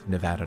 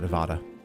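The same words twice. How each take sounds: First: The middle vowel is a short 'a' sound. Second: The middle vowel is an open 'ah' sound. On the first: The speaker calls it right. "insisted we, we understand it's Nevada" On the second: The speaker calls it wrong. "not Nevada ... They get mad if you say ah"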